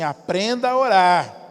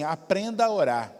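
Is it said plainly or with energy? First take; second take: with energy; plainly. First: It is said with strong energy and conviction. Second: It is said plainly, without much energy.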